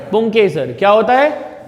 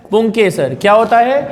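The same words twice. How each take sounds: The two takes are said the same way.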